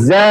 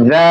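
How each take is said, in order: First: Za with a long buzzing z; correct za. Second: Mispronounced za as learners say it; wrong za pronunciation. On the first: Teacher correcting learners, za articulated slowly and exactly. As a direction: hold the z, then open into za. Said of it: "আমাদের উচ্চারণ করতে হবে". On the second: Teacher imitating how many people mispronounce za, wrong-sound demo. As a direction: show the faulty sound of za. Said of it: "অনেকে উচ্চারণ করে থাকে". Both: Shown as a demonstration.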